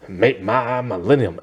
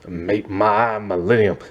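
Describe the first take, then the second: First: It is said in a gravelly, rasping voice. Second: It is said in a deep, country-style voice. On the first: "this really gravelly voice" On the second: "this really deep kind of like country kind of voice"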